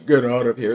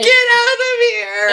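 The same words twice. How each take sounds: First: It is said in a low pitch. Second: It is said in a high pitch.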